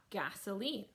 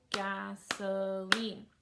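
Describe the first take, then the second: First: Said in the usual way. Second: "gasoline" slowly stretched gas-o-line; three long beats on "gasoline"; syllable by syllable. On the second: Shown as a demonstration. Teacher clapping for a child, "gasoline" split gas-o-line. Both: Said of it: "child to clap gasoline".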